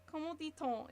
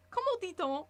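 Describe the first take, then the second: First: Said in the usual way. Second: High, loud excited blurt; proud of a wrong phrase, lifted and loud; mixed-up French. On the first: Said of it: "is French". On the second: Shown as a demonstration. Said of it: "Which means".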